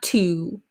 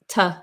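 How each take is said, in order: First: The vowel is a full, rounded oo sound. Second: The vowel is reduced to a short uh sound. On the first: The speaker calls it wrong. "Not to" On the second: The speaker calls it right. "but t"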